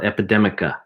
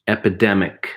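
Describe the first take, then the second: First: An extra vowel is added after the k sound. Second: The word ends cleanly on the k sound. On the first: The speaker calls it wrong. "It's not epidemica" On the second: The speaker calls it right.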